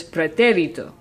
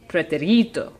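First: Pretérito stressed on té; pretérito said as pre-TÉ-ri-to; third-to-last stress. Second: Pretérito mis-stressed on ri; pretérito said as pre-te-RI-to; second-to-last stress. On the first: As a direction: hit the TÉ of pretérito. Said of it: "emphasis is on the third to last". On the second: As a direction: move the weight to RI in pretérito. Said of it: "emphasis should be on the second to last". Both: Shown as a demonstration.

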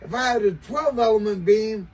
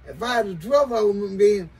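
Both takes have the same delivery.

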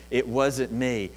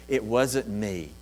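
First: "wasn't" pushed, slowly and firmly; stress on wasn't. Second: "It" pushed, the rest fading down; stress on it. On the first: Peter insisting to the crowd, weight on "wasn't". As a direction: hit "wasn't" in "It wasn't me". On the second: Peter to the crowd, stress on "It". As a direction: lean on "It" in "It wasn't me". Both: Acted.

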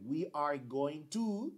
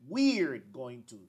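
First: Slow full form, "to" rising; slow long form. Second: Slow, "we're" stressed; slow contracted form. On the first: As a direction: model it slowly. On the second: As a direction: model the short form slowly. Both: Shown as a demonstration. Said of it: "Aquí yo digo".

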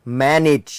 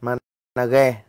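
First: "manage" as English MAN-ij; English pronunciation. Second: "Manage" read letter by letter as ma-na-ghe; Vietnamized mispronunciation. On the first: Shown as a demonstration. Teacher giving the root word, "manage" as English MAN-ij. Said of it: "từ gốc của nó là từ". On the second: Retold or imitated. Teacher joking to students, "Manage" misread as Vietnamese ma-na-ghe. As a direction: mimic a learner's reading, "Manage" as three syllables ma-na-ghe.

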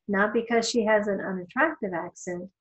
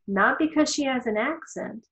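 First: "unattractive" given the weight, pitch level; stress on unattractive. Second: "accent" lifted, pitch a bit higher; stress on accent. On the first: Lecturer narrowing the reason for students, stress on "unattractive". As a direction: add "unattractive" as the new sharpened point. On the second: Lecturer contrasting reasons to students, stress on "accent". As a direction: lean on "accent" as a first, simpler point. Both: Shown as a demonstration.

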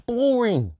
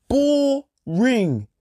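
First: Said in the usual way. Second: High, drawn-out falling boring; Boring stretched long with a falling tune; long sneering boring. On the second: Shown as a demonstration. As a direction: let the word boring sag long and slow. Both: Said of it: "That's how I put it".

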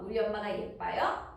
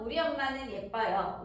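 First: "예뻐요" said as a question; question tune. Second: Said in the usual way. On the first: Shown as a demonstration. Teacher giving a practice sentence about Mom, "예뻐요" in question tune. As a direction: ask it, lifting the end of "예뻐요". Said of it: "비동사 물어보는 말 만들기". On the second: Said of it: "문장으로 만들어서 예를 들면".

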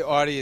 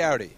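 First: Audi said AH-dee; Midwest pronunciation. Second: Audi said OW-dee; own pronunciation. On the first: Guest showing the Midwest version, Audi as AH-dee. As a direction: say Audi with a flat open "ah". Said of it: "they say Audi in the Midwest". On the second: Guest answering the host, Audi as OW-dee. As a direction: say Audi to rhyme with howdy. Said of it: "I say Audi". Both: Shown as a demonstration.

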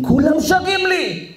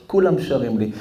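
First: High, drawn-out proclamation; rousing cry. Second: Said in the usual way. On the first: Acted. God telling how all creation sings to him, rousing cry. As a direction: raise the pitch and stretch it out. God's line repeated with force.

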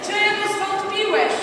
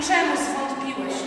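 First: Slow, high, loud prompt; Jesus questioning Peter. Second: Slow, measured question; Jesus questioning Peter. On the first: Leader prompting the boy with Jesus' words, slow loud question. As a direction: stretch the question out and project it. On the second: Leader voicing Jesus to rescued Peter, slow question. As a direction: draw the question out gently. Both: Acted. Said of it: "Jezus natychmiast wyciąga Piotra i mówi".

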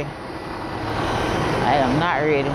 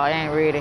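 First: "I am not ready" stretched out word by word; slow right down to insist on "not ready"; slow, emphatic restatement. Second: Said in the usual way. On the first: Real, not acted. Weary traveler telling viewers she isn't ready, slow and emphatic.

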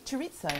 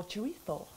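First: Said in the usual way. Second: Chorizo said the Spanish way, with a lisped th for the z; chorizo with a soft Castilian th, said more quietly; Spanish pronunciation. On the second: Shown as a demonstration. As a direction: say chorizo as in Spain, "cho-REE-tho". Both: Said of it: "if you're Spanish".

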